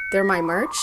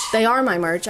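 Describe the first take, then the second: First: "they're my merch" rising at the end like a question; unsure upturn at the end of "they're my merch"; questioning tune. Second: "They are my merch" with stress on "are", no questioning rise; correcting emphasis on "are" in "They are my merch"; firm statement. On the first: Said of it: "said that like it was a question". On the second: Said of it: "like it was a question". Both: Real, not acted.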